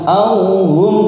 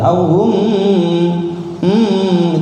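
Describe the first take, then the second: First: The final m is short and not held. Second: The final m is drawn out and held. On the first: The speaker calls it right. "saya contohkan" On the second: The speaker calls it wrong. "dipanjangkan mimnya, salah itu"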